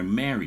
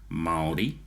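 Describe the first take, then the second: First: The vowels are reduced, sounding like English 'marry'. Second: The vowels are pronounced as separate Maori vowels. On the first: The speaker calls it wrong. "They will go marry, that married person" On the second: The speaker calls it right. "so just the word Maori"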